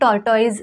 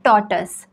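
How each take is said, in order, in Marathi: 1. दुसरा अक्षर 'toys' सारखा वाटतो. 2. दुसरा अक्षर 'tus' सारखा वाटतो. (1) "हे टॉर्टॉइज नाही आहे" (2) "ह्याचं प्रोनाउन्सिएशन आहे टॉटस"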